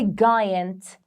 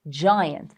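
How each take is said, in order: First: The g is hard, as in 'go'. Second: The g is soft, like a 'j'. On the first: The speaker calls it wrong. "We don't say giant" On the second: The speaker calls it right. "it will become a soft C"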